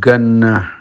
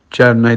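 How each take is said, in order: First: The word begins with a hard g sound. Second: The word begins with a j sound.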